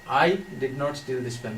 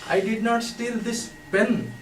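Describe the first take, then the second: First: The stress is on "I". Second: The stress is on "pen".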